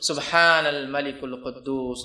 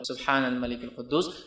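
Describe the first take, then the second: First: It is said loudly, quddus drawn out. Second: It is said quietly.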